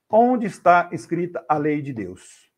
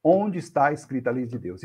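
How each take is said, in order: First: "Onde está escrita a lei de Deus?" drawn out slowly, weight on "Onde"; slow solemn question. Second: Said in the usual way. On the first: Shown as a demonstration. Preacher poses the big question to the audience, slow and weighty. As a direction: lean on "Onde" and let the question hang.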